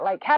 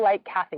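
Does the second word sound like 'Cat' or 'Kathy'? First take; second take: Cat; Kathy. First: The second word is one short syllable, 'Cat'. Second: The second word has two syllables, 'Kathy'. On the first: The speaker is a local. The speaker calls it right. "That's how we know whether they're a local or tourist" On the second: The speaker is a tourist. The speaker calls it wrong. "Don't say Lake Kathy to the locals"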